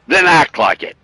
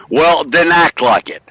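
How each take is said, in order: First: Higher, punchier repeat with then stressed. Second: Slow, each word weighted on act; slow emphatic. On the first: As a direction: hit then, pitched up. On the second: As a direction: lean hard on act, slowly. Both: Shown as a demonstration.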